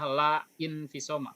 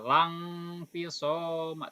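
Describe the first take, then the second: First: La and a separate initial 'i' sound are said. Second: La runs straight into the next word, without hamzah. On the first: The speaker calls it wrong. "tidak usah la infisoma, bukan begitu" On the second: The speaker calls it right. "Cara bacanya lang fisoma"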